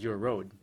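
The last word has an 'oh' vowel. The speaker calls it wrong. "she says"

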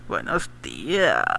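It is said in a leering, lecherous way.

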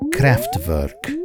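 The name is said the German way.

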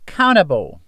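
The middle consonant is a soft D-like sound. "O americano já tira esse som do T e fica mais um som de D"

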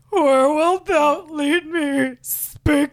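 The voice sounds low and tearful. "Now pretend you're crying"

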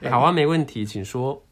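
It flows together in one natural rhythm. The speaker calls it right. "もう一回もっと自然なリズムで言うね。"

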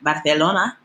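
It is said with a Castilian Spanish accent.

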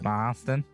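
The word is said in a Boston accent. The speaker calls it right.

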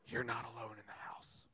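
It is said in a frightening whisper.

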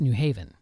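The stress falls on the word 'Haven'. The speaker calls it right. "The almost imperceptible emphasis is on the word haven"

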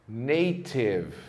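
The t is a clear, crisp t sound. "Já no inglês britânico, a letra T tem sempre o som de T"

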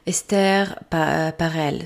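The name is said with a French accent. "So this is in my French accent"

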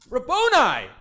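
It is said excitedly, with a squeal.

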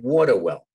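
It is said in a Long Island accent.

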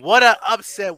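It is said in a put-on announcer voice.

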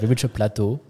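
Plateau is said with a French accent. "I didn't say it in French, you know, like reach a plateau"

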